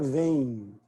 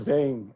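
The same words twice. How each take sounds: First: The nasal vowel ends with an 'ee' glide. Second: The nasal vowel ends without an 'ee' glide. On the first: The speaker calls it right. "aparece um I lá no final" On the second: The speaker calls it wrong. "a gente não fala vem"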